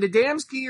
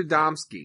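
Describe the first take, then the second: First: Adamski with "dam" in the middle; first pronunciation offered. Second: Adamski with "dom" in the middle; second pronunciation offered. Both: Shown as a demonstration. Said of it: "Is it Adamski or Adamski?".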